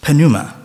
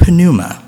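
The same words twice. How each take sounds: First: "pneuma" alone, falling, p lightly sounded; Greek word. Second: "pneuma" with the p sounded, NOO-ma stressed; Greek word. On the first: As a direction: repeat "pneuma" as the Greek term. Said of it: "that word is pneuma". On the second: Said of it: "In the New Testament, in Greek". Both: Shown as a demonstration.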